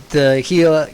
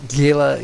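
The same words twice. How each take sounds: First: "Gila" said as "hee-la", soft h and long ee. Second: "Gila" said with a hard g, "GHEE-luh". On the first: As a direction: open "Gila" with a breathy h, "HEE-luh". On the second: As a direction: start "Gila" on a hard g like "gift". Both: Real, not acted. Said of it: "I don't know how to pronounce these words".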